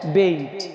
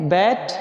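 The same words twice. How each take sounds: First: "बेट" with a gliding "ए-ई", as in English bate; long A vowel. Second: "बैट" with an open "ऐ", as in English bat; short A vowel. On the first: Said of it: "ए ई पढ़ते हैं". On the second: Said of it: "एक बार फिर पढ़ लेते हैं". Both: Shown as a demonstration.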